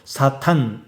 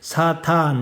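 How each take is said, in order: First: Both vowels are clipped short. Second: Both vowels are drawn out long. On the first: It is the verb meaning to oppose. "이렇게 짧게 발음하면은 동사입니다" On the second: It is the noun. "둘 다 길게 발음하면은 명사고"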